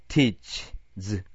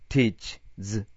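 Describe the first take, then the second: No difference in how they are said.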